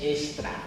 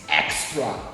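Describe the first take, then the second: First: It is pronounced with Portuguese sounds. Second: It is pronounced with English sounds. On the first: "Estou a ler em português" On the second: "Se você pronunciar o X, vai ser em inglês"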